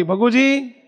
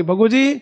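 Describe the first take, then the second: First: Swaminarayan calls his attendant at night, higher call. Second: A rising call to the attendant, higher. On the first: Maharaj wakes and calls for Bhaguji, a higher call. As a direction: call the name out across the room. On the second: Maharaj calls Bhaguji a second time, rising. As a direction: call his name again, lifting at the end. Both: Acted. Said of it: "બૂમ પાડી".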